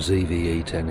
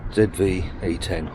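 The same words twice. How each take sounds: First: The letter Z is said as zee. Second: The letter Z is said as zed.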